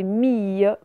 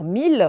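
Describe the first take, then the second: First: "mille" said meey, like end of famille; "mille" drawn out without any L; ye sound. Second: "mille" said meel, like the number; "mille" with clear L, no glide; tempting L reading. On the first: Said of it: "comme on voit le son ye". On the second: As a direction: say "mille" with a final L. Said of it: "tenté de lire mille". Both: Shown as a demonstration.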